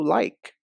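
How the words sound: The vowel sounds like the one in 'like'.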